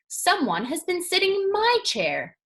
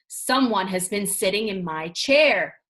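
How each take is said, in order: First: It is said in a middle-sized voice. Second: It is said in a great big deep voice.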